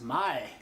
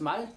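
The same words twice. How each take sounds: First: The vowel is said long. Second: The vowel is said short. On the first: It means speech or language. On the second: It means a horse.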